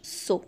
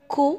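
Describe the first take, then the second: First: The syllable begins with an S sound. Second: The syllable begins with a K sound. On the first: The speaker calls it wrong. "وما ننطقوهش سو" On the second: The speaker calls it right. "ننطقوه كو"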